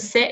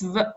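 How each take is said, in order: First: A short vowel follows the s sound. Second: The s runs straight into the v. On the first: The speaker calls it wrong. "It's not even se" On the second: The speaker calls it right. "It's sv. ... It's like a silent vowel"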